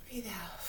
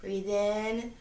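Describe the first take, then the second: First: Breathe out. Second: In rising, drawn out; breathe in. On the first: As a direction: Breathe out softly, falling on out. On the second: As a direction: lift the word in as you inhale. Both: Shown as a demonstration.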